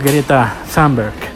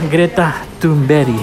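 First: The surname is said with foreign, non-Swedish sounds. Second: The surname is said with native Swedish sounds. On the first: The speaker calls it wrong. "no Greta Thunberg" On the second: The speaker calls it right. "Se llama Greta Thunberg"

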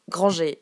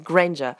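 First: The name is pronounced the French way. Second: The name is pronounced the English way. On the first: The speaker calls it wrong. "de jeux vidéo disent Mademoiselle Granger" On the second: The speaker calls it right. "Non, c'est Granger"

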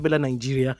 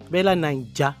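First: The name is said the foreign way. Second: The name is said the local Nigerian way. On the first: The speaker calls it wrong. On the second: The speaker calls it right.

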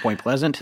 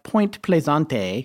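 First: The second word sounds like ordinary English 'pleasant'. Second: The second word has a fancy, foreign-sounding pronunciation. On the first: The speaker calls it right. "It's Point Pleasant" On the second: The speaker calls it wrong. "No, I'm just kidding"

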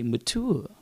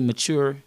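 First: The word is said in an affected, put-on way. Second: The word is said in a plain, ordinary way. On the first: This is how the woman in the video says it. "She say mature" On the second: This is how people normally say it. "She don't say mature"

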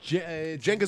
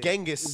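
First: The name begins with a soft J sound. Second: The name begins with a hard G sound. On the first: "Genghis with a J" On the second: "Genghis is with a G"

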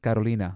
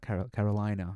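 First: The name is said with a Spanish pronunciation. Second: The name is said with an English pronunciation. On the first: "with the Spanish inflection" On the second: "no, it's not Carolina"

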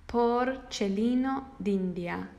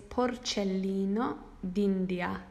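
The two takes are said the same way.

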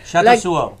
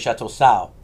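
First: The name ends with an added o sound. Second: The name ends without an added o sound. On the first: The speaker calls it right. "Like if there was an O at the end" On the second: The speaker calls it wrong. "we always used to say Chateau Sau"

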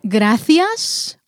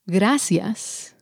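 First: The c in gracias sounds like th. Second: The c in gracias sounds like s. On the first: This is how people in Spain say it. "they pronounce as thi" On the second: This is how people in Mexico say it. "we pronounce as si"

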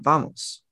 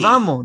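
First: The final s sound is pronounced. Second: The final s sound is dropped. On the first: This is how Puerto Ricans do not say it. "not vamos" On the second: This is how Puerto Ricans say it. "They say vamos"

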